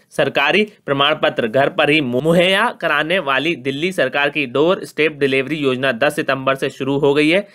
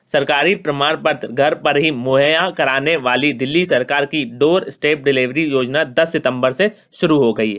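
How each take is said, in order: Both takes have the same delivery.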